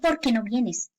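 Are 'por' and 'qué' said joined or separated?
joined. Por and qué run together without a gap. The speaker calls it wrong. "Yo no digo ... Suena mal"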